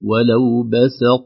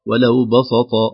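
First: Only the last consonant sounds heavy. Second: All consonants of the last word sound heavy. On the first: The speaker calls it right. "إعطاء كل حرف صفته دون أن تأثر بالآخر" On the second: The speaker calls it wrong. "تصبح الباء والسين والطاء كلها مفخمة"

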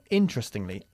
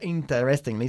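First: A sound early in the word is dropped. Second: Every sound early in the word is pronounced. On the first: The speaker calls it right. "La primera S se pierde, ¿ok? Es muda" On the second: The speaker calls it wrong. "No interestingly"

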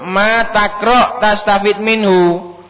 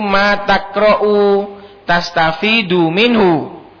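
First: The verbs end without a final vowel. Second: The verbs end with a final 'u' vowel. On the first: Whatever you read, you will benefit from it. "maka bacanya dijazm" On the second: What you read is what you benefit from. "Maka bacanya itu"

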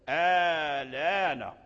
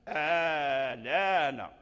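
Both takes have the same delivery.

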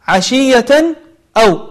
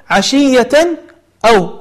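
The two takes are said the same way.

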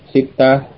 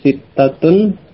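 First: The word ends without the case ending. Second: The word ends with the full case ending.

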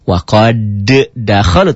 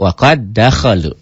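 First: The first d is released separately, with a bounce. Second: The first d merges into one doubled d. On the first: The speaker calls it wrong. "bukan waqad dakhalu" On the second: The speaker calls it right. "tapi waqad dakhalu"

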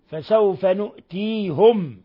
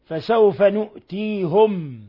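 First: The last word ends with -hum, a u vowel. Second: The last word ends with -hum, a u vowel.

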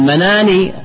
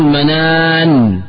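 First: The final n is followed by an i-vowel. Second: The final n is held silent, without a vowel. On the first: The word runs on into the following speech. The speaker calls it wrong. "مناني بكسر النون، نقول هذا في الوصل لا في الوقف" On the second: The word stands at a pause. The speaker calls it right. "تقول منان بالوقف"

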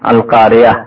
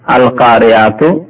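First: The word ends softly with an h sound. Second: The word ends with a full tu syllable. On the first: The reciter stops at the end of the verse. "গোলতাকে যখন ওয়াকফ করা হয় অর্থাৎ থামা হয় তখন তা আর পড়া হয় না, হা পড়া হয়" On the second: The reciter continues without stopping. "আল কারিয়াতু আসলে"

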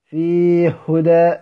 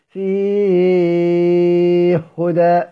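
First: The long vowel is held briefly. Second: The long vowel is held for a long time. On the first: "الكسر" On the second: "والمد"

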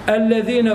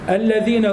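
The two takes are said the same way.

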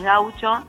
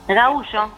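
First: It is said with Spanish pronunciation. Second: It is said with Brazilian Portuguese pronunciation. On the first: "vos lo lees y es gaucho" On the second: "se pronuncia distinto"

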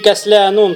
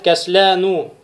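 First: The word ends in -un, with a final n. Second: The word ends in -u, with no final n. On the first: The speaker calls it wrong. "тоже будет ошибочен" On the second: The speaker calls it right. "будет правильно сказать"

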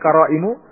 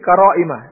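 First: The word ends with a u vowel. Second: The word ends with an a vowel. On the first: The word is in the nominative case. The speaker calls it wrong. "bukan qara'imu" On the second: The word is in the accusative case. The speaker calls it right. "dibaca mansub dengan difatwat difathakan"

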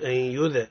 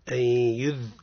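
First: The dh ends with a bouncing echo. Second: The dh flows softly without a bounce. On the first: The speaker calls it wrong. "لا نقولش أن يذ" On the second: The speaker calls it right. "قل أن يذ أعطيه الرخاوة"

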